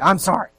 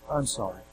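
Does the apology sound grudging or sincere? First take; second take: grudging; sincere. First: The apology sounds grudging and dutiful. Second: The apology sounds heartfelt and sincere. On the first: The apology is only made because it is required. The speaker calls it wrong. "But it doesn't really come from here, right?" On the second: The apology comes from genuine regret. The speaker calls it right. "isn't it beautiful when they get it"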